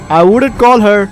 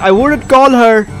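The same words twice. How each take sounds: The two takes are said the same way.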